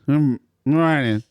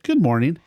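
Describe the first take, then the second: First: It is said reluctantly and forced. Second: It is said warmly, with a smile.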